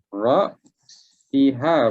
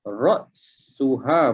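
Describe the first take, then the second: First: The vowel after the s is i. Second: The vowel after the s is u. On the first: "Ra'siha boleh baca" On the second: "ra'suha boleh baca"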